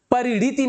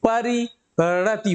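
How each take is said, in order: First: परिणीति said pa-ri-nee-ti, long ee in the middle; wrong reading परिणीति, long ee; wrong form read out. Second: परिणति said pa-ri-na-ti, short a, no ee, slowly; correct form, slowly. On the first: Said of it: "नहीं होता है". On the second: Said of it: "बल्कि". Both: Shown as a demonstration.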